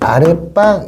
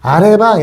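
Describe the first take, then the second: First: The consonant starting 방 is tense. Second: The consonant starting 방 is plain. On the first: The speaker calls it right. "분명히 발음은 아랫방 이렇게 하잖아" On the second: The speaker calls it wrong. "아래방 이렇지 않죠"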